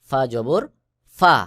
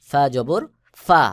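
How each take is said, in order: No difference in how they are said.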